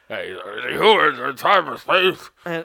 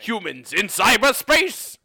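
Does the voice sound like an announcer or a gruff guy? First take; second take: gruff guy; announcer. First: It sounds like a rough guy in a warehouse. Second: It sounds like a loud old-time radio announcer. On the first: "More like a dude in a gross warehouse" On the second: "Less like a 1920s announcer"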